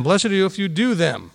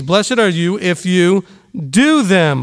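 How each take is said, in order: First: Quieter echo, "do" still stressed; softer repeat. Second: Slow, weighty "do" stressed. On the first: Teacher softly repeating the verse to the class. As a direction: repeat it softly, letting "do" land. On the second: Teacher stressing "do them" to the congregation. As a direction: lean on the word "do" in "do them". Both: Shown as a demonstration.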